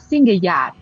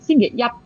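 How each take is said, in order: First: The final syllable carries the tone meaning Sunday. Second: The final syllable carries the tone meaning Monday. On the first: It names Sunday. "hari Minggu itu kita ngomongnya singgeyat" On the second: It names Monday. "Kalau hari Senin singgeyat"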